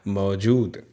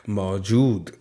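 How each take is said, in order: The two takes are said the same way.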